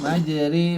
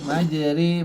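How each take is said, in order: First: The vowel after r sounds close to ee. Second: The vowel after r sounds close to ee.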